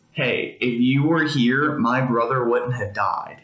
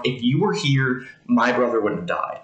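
First: A hint of grief in her words, slowed down; lightly voiced Mary, pain under the reproach; pained plea. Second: Blunt retold plea, stress on were; lightly voiced Mary, straight to the point; mild blunt accusation; direct reproach. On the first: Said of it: "there was a lot of pain in that". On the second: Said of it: "Mary's a little bit more direct".

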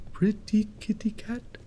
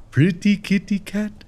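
First: Soft, breath-only whisper; whispered cat call. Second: High, voiced coaxing; high cat call. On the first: Pretend. Player luring the kitty cat, hushed whisper. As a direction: whisper it to lure the cat closer. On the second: Player calling the kitty cat, high voiced coo.

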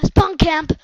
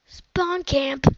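First: Loud yell; shouting about being spawn camped. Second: Said in the usual way. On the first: Real, not acted. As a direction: yell the complaint out.

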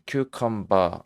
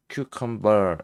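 First: Cucumber ending in an open "ba", no R; British cucumber. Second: Cucumber with a held R on the final -ber; American cucumber. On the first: Teacher echoing the British recording, r-less British cucumber. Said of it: "영국식도 있는데". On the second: Teacher contrasting with British style, American R in cucumber. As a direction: curl the tongue at the end of cucumber. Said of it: "미국식은". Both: Shown as a demonstration.

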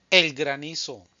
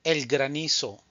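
No difference in how they are said.

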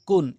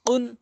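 First: কুন with a light forward k; everyday k in কুন; ordinary kaf. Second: কুন with a q from the tongue root; k of কুন made far back; back-of-tongue qaf. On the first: Teacher drills qaf against kaf, light k in কুন. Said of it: "আর এটি হচ্ছে কান". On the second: Teacher drills qaf against kaf, back q in কুন. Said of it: "জিহ্বার গোড়া থেকে". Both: Shown as a demonstration.

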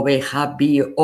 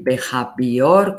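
First: "behavior" sounded out as written, ending in o-ur; spelling pronunciation. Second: "behavior" sounded out as written, ending in -or; spelling pronunciation. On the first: Teacher showing students the other spelling, spelling pronunciation. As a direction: say "behavior" by its spelling, with an added u before the r. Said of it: "con O". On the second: Teacher showing students one way to write it, spelling pronunciation. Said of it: "se puede escribir behavior". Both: Shown as a demonstration.

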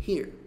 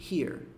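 First: Said in the usual way. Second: "here" with lips lightly pursed on the r; rounded lips. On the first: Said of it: "Sem biquinho". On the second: Shown as a demonstration. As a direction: add a light pucker at the end of "here". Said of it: "Com biquinho". ("here" com biquinho leve)

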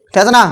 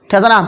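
No difference in how they are said.

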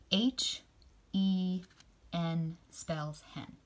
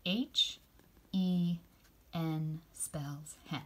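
First: Put-on slow, drawn-out spelling for kids. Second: Slow and softer repeat of N spells hen; slow spelling, softer. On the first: Teacher modelling a spelling, said slowly. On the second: Teacher repeating the spelling with the kids, slowly. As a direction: echo the spelling slowly and gently. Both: Shown as a demonstration. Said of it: "Can you say that with me".

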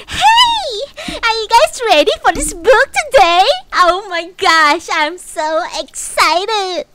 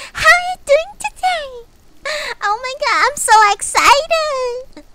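First: Very high, loud, bubbly greeting; cutesy VTuber voice. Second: Very high, loud and gushing; high-pitched cutesy VTuber voice. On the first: Pretend. Vtuber imagines greeting chat in the cutesy voice, squealing. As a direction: gush like a sugary morning host. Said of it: "I'm like". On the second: Shown as a demonstration. Vtuber mocking cutesy streamers to chat, squealing high. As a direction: gush like an overexcited cute streamer. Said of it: "that type of voice".

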